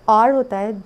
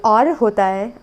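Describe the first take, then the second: The two takes are said the same way.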